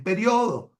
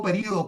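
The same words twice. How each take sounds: First: "periodo" said pe-rio-do, the o stressed; "periodo" as a Spanish llana, stress on the o of -rio-; "periodo" como palabra llana: pe-RIO-do. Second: "periodo" said as pe-rí-o-do, the i stressed; "periodo" with the stress on the í, Venezuelan style; "periodo" acentuado en la í: pe-RÍ-o-do; período, stressed on the i. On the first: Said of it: "la pronuncian como una palabra llana". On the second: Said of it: "escribo periodo con acento en la I". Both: Shown as a demonstration.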